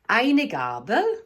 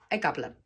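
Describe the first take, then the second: First: It is said with a Standard German pronunciation. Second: It is said with a Swiss German pronunciation. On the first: "Aber auf Deutsch"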